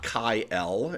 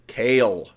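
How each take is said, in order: First: The name sounds like 'Kyle'. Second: The name sounds like 'Kale'. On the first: The speaker calls it wrong. "It is not Kai L" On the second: The speaker calls it right. "The pronunciation of this name is Kale"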